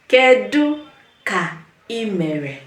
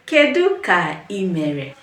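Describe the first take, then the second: First: "Kedu ka ị mere" slow, with pauses between words; slow word-by-word model. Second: Said in the usual way. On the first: Shown as a demonstration. Teacher has learners repeat after her, "Kedu ka ị mere" slowly, piece by piece. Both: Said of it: "Say it with me".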